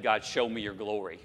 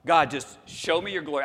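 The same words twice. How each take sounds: First: Said in the usual way. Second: Bold request. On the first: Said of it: "if I said". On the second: Retold or imitated. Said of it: "Can you imagine having said that to God".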